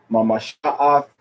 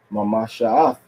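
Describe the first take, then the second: First: Mamasha'ath with the last two syllables pulled apart; syllables split. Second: Mamasha'ath with the last two syllables joined; last syllables connected. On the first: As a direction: break Mamasha'ath before its final "ath". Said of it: "Not, uh". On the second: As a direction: run "sha" into "ath" in Mamasha'ath. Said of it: "two last syllables are connected together". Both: Shown as a demonstration.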